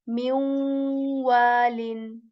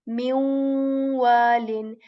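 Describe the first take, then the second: Both takes have the same delivery.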